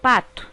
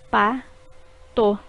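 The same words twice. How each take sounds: First: Said in the usual way. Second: Pa-to in two separate beats; syllables split. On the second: Shown as a demonstration. Teacher showing two syllables in pato. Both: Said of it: "formadas por duas sílabas".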